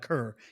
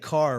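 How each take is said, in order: First: The vowel sounds like the one in 'cur'. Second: The vowel sounds like the one in 'car'. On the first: This is how the name's owner says it. "he goes by Kerr" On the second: This is how locals say the name. "we would say Carr around here"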